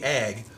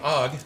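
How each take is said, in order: First: The vowel is a short 'a' sound. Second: The vowel is an open 'ah' sound. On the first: The speaker calls it wrong. "not A G" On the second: The speaker calls it right. "it's actually pronounced A H G"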